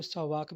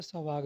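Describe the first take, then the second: First: सवाक ending in a voiceless k; variant pronunciation. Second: सवाग ending in a voiced g; variant pronunciation. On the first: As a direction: say सवाक as "sawaak", with a final k sound. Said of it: "कुछ लोग सवाक भी कहते हैं". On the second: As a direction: say सवाग as "sawaag", with a final g sound. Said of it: "सवाग भी कहते हैं". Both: Shown as a demonstration.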